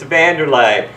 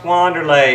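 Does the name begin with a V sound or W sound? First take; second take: V sound; W sound. First: The name begins with a V sound. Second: The name begins with a W sound. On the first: "it's Vanderlei" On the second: "It's not pronounced Wanderlei"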